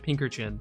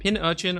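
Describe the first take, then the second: First: The name is said with a k sound. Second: The name is said without a k sound. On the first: "Because it's got a C in it" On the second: "you pronounced it Pin Urchin"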